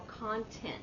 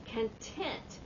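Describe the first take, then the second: First: "content" said KON-tent; "content" with open o, KON-tent; first-syllable stress. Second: "Content" said kun-TENT; "Content" with weak first vowel, strong TENT; second-syllable stress. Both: Shown as a demonstration. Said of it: "you say it differently".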